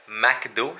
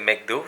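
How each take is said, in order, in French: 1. La première syllabe se prononce comme 'mac'. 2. La première syllabe ne se prononce pas comme 'mac'. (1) "ce n'est pas euh, McDo" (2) "c'est McDo"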